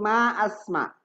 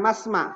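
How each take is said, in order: First: A glottal stop separates the two words. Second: The words run together without a glottal stop. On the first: The speaker calls it right. "hamzatul qata dibaca ma asma" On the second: The speaker calls it wrong. "bukan masma"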